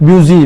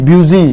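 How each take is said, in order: The two takes are said the same way.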